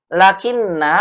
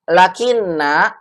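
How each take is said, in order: No difference in how they are said.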